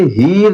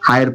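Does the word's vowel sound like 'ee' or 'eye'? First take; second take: ee; eye. First: The vowel is a long 'ee' sound. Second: The vowel is an 'eye' sound. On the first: The speaker calls it wrong. "इसे हीर नहीं पढ़ेंगे" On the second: The speaker calls it right. "इसे हायर पढ़ना है"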